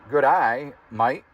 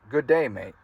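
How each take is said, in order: First: It is said in an Australian accent. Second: It is said in an American accent. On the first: "how to pronounce things in Australian accent" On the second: "it sounds like"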